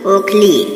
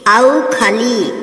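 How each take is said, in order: First: The first vowel sounds like o. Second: The first vowel sounds like au. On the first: The speaker calls it right. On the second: The speaker calls it wrong.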